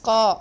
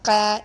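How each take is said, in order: First: The consonant is heavy, from deep in the throat. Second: The consonant is light, made further forward. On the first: The speaker calls it right. "It's qa" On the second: The speaker calls it wrong. "It's not qa. It is a heavy letter. Don't make it light"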